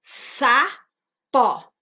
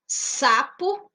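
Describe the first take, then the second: First: "sapó" with the second syllable punched, louder; stress on the last syllable. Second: Said in the usual way. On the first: Shown as a demonstration. Teacher stressing the final syllable of "sapó" for pupils. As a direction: hit the end of "sapó" hard. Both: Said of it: "Classifica-se como dissílaba".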